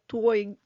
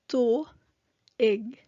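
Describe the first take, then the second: First: The word is run together into one syllable. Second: The word is split into two separate syllables. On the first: The speaker calls it wrong. "some of you might read this word as twig" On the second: The speaker calls it right. "this is read as tu ig"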